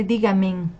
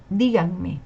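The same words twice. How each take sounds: First: "dígamen" with the n at the very end; wrong form, misplaced n. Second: "díganme" slowly, with the n before me; correct form. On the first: Teacher showing what not to say, "dígamen" ending in -men. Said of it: "No se dice dígamen". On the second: Teacher correcting a common mistake, slow "díganme" ending in -me. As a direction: draw out "díganme" as DÍ-gan-me. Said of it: "se dice díganme". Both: Shown as a demonstration.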